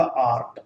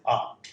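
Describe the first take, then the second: First: आर्ट with the r sounded before t; Indian-style r in आर्ट; R pronounced. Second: आर्ट as long aa plus t, no r; British-style r-less आर्ट; R dropped. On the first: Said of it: "इस आर का उच्चारण करते हैं". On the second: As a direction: leave the r silent in आर्ट. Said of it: "इस रे को drop कर सकते हैं". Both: Shown as a demonstration.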